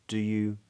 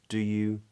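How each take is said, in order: No difference in how they are said.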